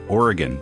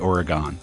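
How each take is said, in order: First: Oregon is said the way locals say it. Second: Oregon is said the way outsiders say it. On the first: This is how people there say it. The speaker calls it right. "They say Oregon" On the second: People there do not say it this way. The speaker calls it wrong. "don't say Oregon"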